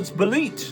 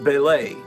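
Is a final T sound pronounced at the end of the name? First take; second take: yes; no. First: The name ends with a T sound. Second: The name ends without a T sound. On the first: "everyone's telling, no, it's Belit" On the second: "I always pronounced it Belay ... you don't pronounce the T"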